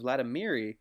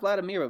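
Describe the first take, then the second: First: The name ends with a final 'ee' syllable. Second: The name ends without a final 'ee' syllable. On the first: The speaker calls it right. "but Vladimiri" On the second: The speaker calls it wrong. "not Vladimir"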